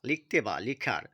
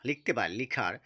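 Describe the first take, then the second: The two takes are said the same way.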